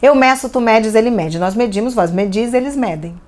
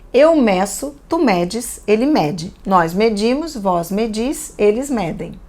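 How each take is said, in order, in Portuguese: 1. É lida muito depressa. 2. É lida num ritmo normal e tranquilo.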